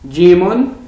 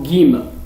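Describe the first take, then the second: First: The first sound is a soft j. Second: The first sound is a hard g. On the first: The speaker calls it right. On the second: The speaker calls it wrong.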